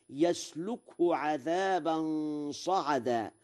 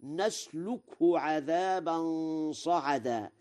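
First: Y sound opening يسلكه; ya prefix. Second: N sound opening نسلكه; nun of majesty. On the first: Teacher quotes the verse before Warsh's, يسلكه starting with ya. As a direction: recite يسلكه as yaslukhu. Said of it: "قرأ ورش". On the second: Teacher shows Warsh's reading, نسلكه starting with nun. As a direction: recite نسلكه as naslukhu. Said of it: "بالنون على العظمة". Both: Shown as a demonstration.

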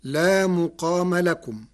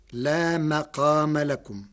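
First: مقام recited as muqāma, with u after the mim; لا مقام لكم with "mu" opening مقام; damma on the mim. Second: مقام said as maqāma, with a after the mim; لا مقام لكم with "ma" opening مقام; fatha on the mim. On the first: Lecturer reciting the verse before Warsh's variant, muqāma. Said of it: "قرأ ورش كلمة مقام". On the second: Lecturer showing how Warsh reads it, maqāma. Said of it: "بفتح الميم". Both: Shown as a demonstration.

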